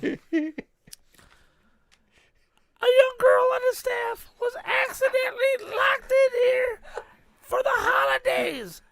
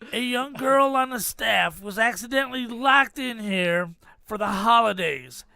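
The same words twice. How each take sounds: First: It is read in an imitated girl's voice. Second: It is read in his own normal voice.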